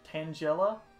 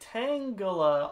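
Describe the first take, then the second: First: The name does not begin like 'tangle'. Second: The name begins like the word 'tangle'. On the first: This is how the game's announcer says it. "in Pokemon Stadium two they pronounce it Tangela" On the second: The name comes from the word tangle. "always made more sense to me because it's, you know, a tangle"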